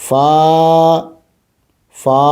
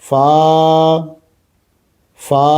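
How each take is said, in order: The two takes are said the same way.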